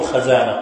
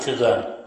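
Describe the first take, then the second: First: The first vowel is an open a sound. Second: The first vowel is an i sound. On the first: The speaker calls it wrong. "لا تفتح الخزانة، لا تقول خزانة" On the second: The speaker calls it right. "قل خزانة"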